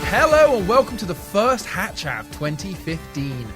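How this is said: It sounds bright and excited like kids' TV.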